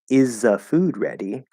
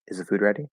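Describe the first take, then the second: First: It is said slowly with the th sound dropped. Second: It is said quickly with the th sound dropped. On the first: The speaker calls it wrong. "that sounds weird" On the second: The speaker calls it right. "Especially in really fast speech"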